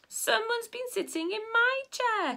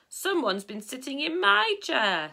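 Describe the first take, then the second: First: It is said in a small, high, squeaky voice. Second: It is said in a big, deep, booming voice. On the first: "in a squeaky little voice" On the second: "in a big booming voice"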